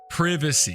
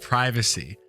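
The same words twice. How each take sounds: First: It is said with a British pronunciation. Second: It is said with an American pronunciation. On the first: "how the British say these words" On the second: "instead of"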